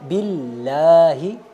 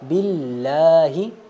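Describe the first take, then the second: No difference in how they are said.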